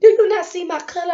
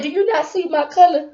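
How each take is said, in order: First: Faster sassy retort. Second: Sassy retort. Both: Retold or imitated. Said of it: "'Cause I said".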